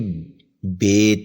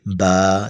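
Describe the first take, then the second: First: The letter is named with Urdu pronunciation. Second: The letter is named with Arabic pronunciation.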